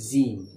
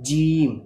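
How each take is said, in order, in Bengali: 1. প্রথম ব্যঞ্জনটি নরম, জিভ চাপা নেই। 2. প্রথম ব্যঞ্জনটি শক্ত, জিভ দৃঢ়ভাবে চাপা। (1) "ছেলেমেয়েরা যে ভুলটা করে" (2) "পুরোপুরি জিভটাকে চেপে বলবো"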